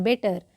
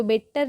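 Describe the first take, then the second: First: "बेटर" with one t, be-tar; corrected "बेटर", no doubled consonant; correct pronunciation. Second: "बेटर" read by its spelling, bet-tar with a doubled t; wrong pronunciation. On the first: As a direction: say बेटर with a single light t. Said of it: "क्या पढ़ते हैं?". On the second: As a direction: hit both t's in बेटर as a mistake. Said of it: "बेटर नहीं". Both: Shown as a demonstration.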